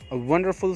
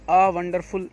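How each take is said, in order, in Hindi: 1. पहला शब्द छोटी 'uh' ध्वनि जैसा है। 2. पहला शब्द लंबी 'ah' ध्वनि जैसा सुनाई देता है। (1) "इसी तरीके से करिएगा अ" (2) "ये नहीं"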